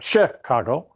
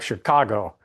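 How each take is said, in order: First: The stress is on the first syllable. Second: The stress is on the second syllable. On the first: The speaker calls it wrong. "it's not Chicago" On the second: The speaker calls it right. "like Chicago"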